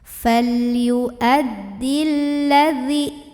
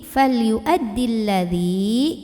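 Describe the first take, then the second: First: The last vowel is short, running straight on. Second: The last vowel is held long before stopping. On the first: The reader continues without stopping. "Maka kalau wasol, zalnya pendek" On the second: The reader pauses at this word. "Kalau kita berhenti di sini, bacanya panjang dua harokat"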